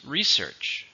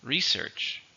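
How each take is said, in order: First: Research with stress on the first syllable, RE-search; teacher modelling Research, first syllable stressed; pronunciation model. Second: Research again, softer, stress on the first, RE-search; softer repeat of Research, RE-search; repeat model. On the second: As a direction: clear repeat for learners. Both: Shown as a demonstration. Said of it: "Listen to the pronunciation".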